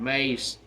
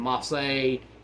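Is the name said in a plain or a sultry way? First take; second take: plain; sultry. First: The name is said in a plain, ordinary way. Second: The name is said in a sultry, altered way. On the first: This is the original name. "but they were Mansoor and Mace" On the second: This is the altered ring name meant to sound sexy. "changed the pronunciations to make them sound more sexual"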